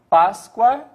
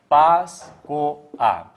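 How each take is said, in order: First: The final 'oa' glides together as one syllable. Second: The final 'o' and 'a' form two separate syllables.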